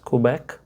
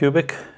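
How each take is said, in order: First: The name sounds like the place Quebec. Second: The name sounds like the word cubic.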